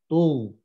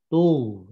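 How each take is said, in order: No difference in how they are said.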